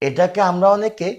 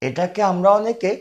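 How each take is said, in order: The two takes are said the same way.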